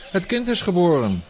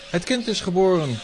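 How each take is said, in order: First: "Het kind IS geboren", punch is; guards shouting. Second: "Het KIND is geboren", punch kind; guards shouting. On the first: Guards insist to their master, stress on is. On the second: Guards alarm their master, stress on kind. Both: Acted.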